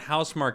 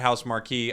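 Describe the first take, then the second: First: The name ends with a plain 'mark' sound. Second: The name ends with an extra 'ee' sound. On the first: The speaker calls it right. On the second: The speaker calls it wrong.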